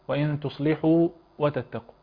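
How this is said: A brief pause comes before the last word. The speaker calls it wrong. "في ناس تعمل ايه بقى هنا كمان، تسكت عليها"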